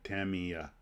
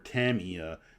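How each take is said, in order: First: All syllables are even, in a monotone. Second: One syllable is stressed, with inflected pitch. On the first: This is how it would be said in Japan. The speaker calls it right. "it would just be Tamiya. ... one monotone way to say it" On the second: This is how English speakers say it. The speaker calls it wrong. "Like we say Tamiya or Tamiya"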